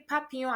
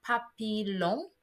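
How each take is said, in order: First: "papillon" as pa-pee-yon, silent L; correct French papillon. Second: "papillon" as pa-pee-lon, L sounded; spelling-based papillon. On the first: Teacher questioning the spelling, "papillon" with ll as y. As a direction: glide the ll of "papillon" into a y. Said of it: "Why did I say papillon". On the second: Teacher showing the expected misreading, "papillon" with a hard L. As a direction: pronounce the ll of "papillon" as a clear L. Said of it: "and not papillon". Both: Shown as a demonstration.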